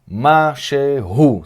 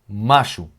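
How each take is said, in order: First: All three syllables are pronounced carefully. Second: It is said fast with the middle syllable dropped. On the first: "a pronúncia, vamos dizer, correta será Mashehu" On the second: "quando a gente fala rápido... A gente fala macho"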